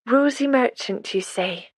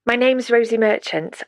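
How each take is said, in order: First: A lightly voiced old woman turning the name over, higher and slow; old midwife slowly repeats the name, higher then trailing off; musing old midwife. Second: Said in the usual way. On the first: A narrator's reading. Midwife repeats the visitor's name, slow and higher.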